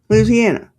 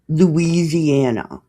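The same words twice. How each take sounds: First: It is said the way locals say it. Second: It is said the way outsiders say it. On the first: The speaker is a local. The speaker calls it right. "That's how you say it" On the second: The speaker is from out of town. The speaker calls it wrong. "It's not Louisiana"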